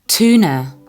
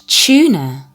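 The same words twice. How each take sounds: First: It is said with an American accent. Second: It is said with a British accent. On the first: "American tuna" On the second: "British tuna"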